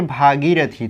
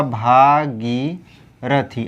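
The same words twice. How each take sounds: First: भागीरथी run together with a brief गी; short gi. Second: भागीरथी slowly in parts, गी held; long gī. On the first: Teacher reading out the misspelt word, quick भागीरथी. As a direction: say भागीरथी straight through, gi short. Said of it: "जो गी है ये छोटा है". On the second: Teacher spelling the correction for students, slow भागीरथी. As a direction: stretch भा and गी in भागीरथी. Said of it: "तो ये हो जाएगा आपका". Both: Shown as a demonstration.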